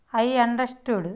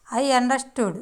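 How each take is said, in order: Both takes have the same delivery.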